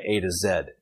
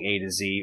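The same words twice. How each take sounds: First: The last letter is said as zed. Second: The last letter is said as zee.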